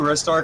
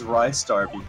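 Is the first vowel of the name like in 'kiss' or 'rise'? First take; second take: kiss; rise. First: The first syllable sounds like 'riss'. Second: The first syllable sounds like 'rise'. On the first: "that's what I've always called it" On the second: "because he's a rising star"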